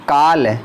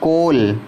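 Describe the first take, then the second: First: The vowel sounds like 'ah'. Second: The vowel sounds like 'oh'. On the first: The speaker calls it wrong. "काल नहीं" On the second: The speaker calls it right. "कोल तो यहाँ sound आ रही है ओ"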